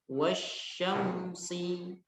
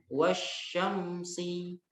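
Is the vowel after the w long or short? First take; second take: short; short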